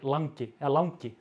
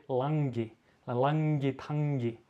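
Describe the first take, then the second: First: "langi" with a plain N and G, standard Icelandic; Reykjavik langi. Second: "langi tangi" with a soft N-G, slowed down; Westfjords langi. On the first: Local shows the standard Reykjavik "langi". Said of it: "so when I say ... we say in Icelandic". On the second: Local tries the soft Westfjords "langi tangi", admits it's weak. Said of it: "a very soft pronounce on N and G". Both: Shown as a demonstration.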